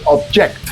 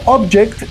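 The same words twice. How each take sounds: First: The stress is on the last syllable. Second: The stress is on the first syllable. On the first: It is a verb meaning to oppose. "cambiamos el acento a la última sílaba" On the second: It is a noun meaning a thing. "estamos hablando de un noun"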